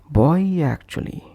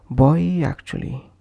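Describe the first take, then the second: First: A soft y sound links the two words. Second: The same.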